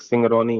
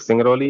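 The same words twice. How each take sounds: First: सिंगरौनी ending clearly in "-nee". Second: सिंगरौली ending clearly in "-lee". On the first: Teacher separating two look-alike place names, सिंगरौनी with final "-nee". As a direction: say सिंगरौनी with an N in the last syllable. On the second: Teacher separating two look-alike place names, सिंगरौली with final "-lee". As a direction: say सिंगरौली with an L in the last syllable. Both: Shown as a demonstration. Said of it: "गलती से पढ़ नहीं पाए होंगे ठीक से".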